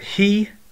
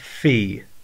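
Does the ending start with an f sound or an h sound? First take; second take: h sound; f sound. First: The ending starts with an h sound. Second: The ending starts with an f sound. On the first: "you can pronounce it as a he" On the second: "or a fi"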